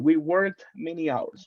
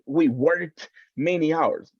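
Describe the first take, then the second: First: The final sound of worked is light and linked. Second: The final sound of worked is exaggerated. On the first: The speaker calls it right. "But the sound is included" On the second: The speaker calls it wrong. "like an exaggeration of the sound"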